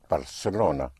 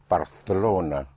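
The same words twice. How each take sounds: First: The c sounds like English s. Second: The c sounds like English th. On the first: This is how it is said everywhere else. "everywhere else it will be pronounced Barcelona, like an S" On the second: This is how it is said in parts of Spain. "pronounced like a T H in English, like in Barcelona"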